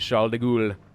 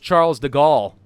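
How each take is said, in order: First: The name is said with a French-style pronunciation. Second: The name is said with an English-style pronunciation. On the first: The speaker calls it right. "But the pronunciation, apparently, is" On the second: The speaker calls it wrong. "I thought it was Charles de Gaulle. You know, Charles of Gaul"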